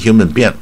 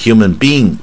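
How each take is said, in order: First: Both vowels of 'being' are kept short. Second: Both vowels of 'being' are held long. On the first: "你用短音human being 也不对" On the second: "如果你念长音human being 也不对"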